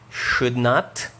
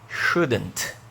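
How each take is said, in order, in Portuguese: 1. Ela é dita por extenso, como duas palavras. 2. Ela é dita encurtada, em uma única palavra contraída. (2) "contraída"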